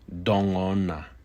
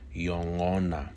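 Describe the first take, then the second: First: The word begins with a D sound. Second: The word begins with a Y sound. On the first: "it may also be pronounced with a D sound" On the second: "You will oftentimes hear this word pronounced just as I said it"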